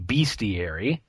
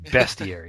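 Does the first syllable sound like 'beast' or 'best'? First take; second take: beast; best. First: The first syllable sounds like 'beast'. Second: The first syllable sounds like 'best'. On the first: The speaker calls it wrong. "It doesn't say B-E-A-S-T" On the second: The speaker calls it right. "it says B-E-S-T"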